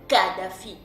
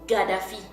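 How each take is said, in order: First: The name begins with a voiceless K sound. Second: The name begins with a voiced G sound. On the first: Another group of speakers says it this way. "les autres Bénin Congo qui disent Kadhafi" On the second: One group of speakers says it this way. "une part de Bénin Congo qui disent euh, Gaddafi"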